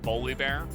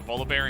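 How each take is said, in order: First: It begins with a B sound. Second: It begins with a V sound.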